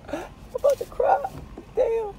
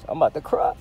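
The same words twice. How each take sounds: First: Very high, squeaky near-crying voice; mock tearful. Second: Said in the usual way. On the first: Fed-up driver looking at the blocked road, mock tearful. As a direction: put on a tiny high whimper.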